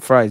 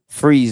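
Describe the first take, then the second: First: The syllable has an 'eye' vowel, like 'fries'. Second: The syllable has an 'ee' vowel, like 'freeze'. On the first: The speaker calls it wrong. "not fries" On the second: The speaker calls it right. "Freeze, not fries"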